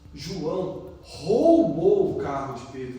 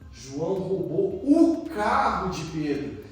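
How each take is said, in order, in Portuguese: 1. A ênfase cai na palavra roubou. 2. A ênfase cai na palavra carro. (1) "Nossa, ele roubou, que ato feio" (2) "Nossa, ele perdeu o carro, vai andar a pé"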